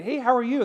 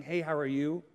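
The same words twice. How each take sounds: First: Higher, livelier greeting; interested greeting. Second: Low, soft, offhand greeting; perfunctory greeting. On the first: Speaker asking somebody how they are, with interest. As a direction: ask it as a real question. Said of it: "I ask somebody". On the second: Someone just saying hello, not wanting the answer, perfunctory. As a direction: toss out a greeting without really asking. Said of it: "they really didn't wanna know the answer". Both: Retold or imitated.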